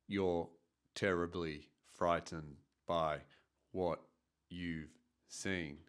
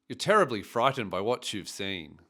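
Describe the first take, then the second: First: Every syllable is even, with no stress or melody. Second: Key syllables are stressed, with a lively stress-timed rhythm. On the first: The speaker calls it wrong. "I wasn't using any stress or intonation" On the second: The speaker calls it right. "And this is how it sounds"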